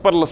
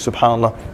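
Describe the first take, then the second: First: It is rushed and clipped to two syllables. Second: It is said at normal speed, every syllable full. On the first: The remembrance is done carelessly, only for the count. The speaker calls it wrong. "it's super speed" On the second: The remembrance is done properly and with attention. The speaker calls it right. "Just at normal speed"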